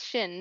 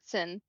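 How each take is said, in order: First: The name begins with a sh sound. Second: The name begins with an s sound. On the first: The speaker calls it right. "It's sh" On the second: The speaker calls it wrong. "not Sin"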